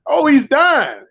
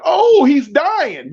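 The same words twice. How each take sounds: First: Raised, brisk "oh, he's dying"; quicker alarmed repeat. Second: Slow, drawn-out high "oh, he's dying"; hammed-up onlooker panic; mock panic. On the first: Retold or imitated. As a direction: blurt it again in alarm. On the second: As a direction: wail it like a bystander in alarm. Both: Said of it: "somebody hollered".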